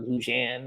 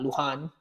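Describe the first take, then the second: First: The middle consonant is a J sound. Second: The middle consonant is a breathy H sound.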